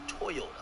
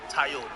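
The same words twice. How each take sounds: First: Toyota said as "Toy-ota"; rejected pronunciation. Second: Toyota said as "Tai-yota"; Jamaican pronunciation. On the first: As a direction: start Toyota with a clear "toy" sound. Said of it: "We don't say". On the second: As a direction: give Toyota a "tie" first syllable, Jamaican style. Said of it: "No, I'm Jamaican". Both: Shown as a demonstration.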